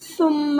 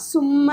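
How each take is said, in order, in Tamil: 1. முதல் ஒலி நாக்கை பற்களுக்கு இடையில் வைத்து உச்சரிக்கப்படுகிறது. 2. முதல் ஒலி நாக்கை பற்களுக்கு இடையில் வைக்காமல் உச்சரிக்கப்படுகிறது. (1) "நுனினாக்க இரண்டு பற்களுக்கு முன் பற்களுக்கு இடையில் வைத்து லைட்டாக" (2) "சும்ம அப்படின்னு சொல்லாமல்"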